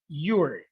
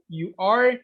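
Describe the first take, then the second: First: The two words are joined into one syllable. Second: Both words are said fully and separately. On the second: "the pronunciation changes a little bit too"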